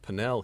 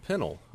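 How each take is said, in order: First: The name is said the way the family says it here. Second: The name is said the way people in England say it. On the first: This is the family's own chosen pronunciation. "we pronounce it Pinnell here" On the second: This is how others abroad say the name. "at least in England, pronounce my last name"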